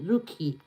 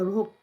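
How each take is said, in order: First: The name ends with an added ee vowel. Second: The name ends on the k, without ee. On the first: The speaker calls it wrong. "You don't say the e in the rookie" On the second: The speaker calls it right. "Oh, I get it"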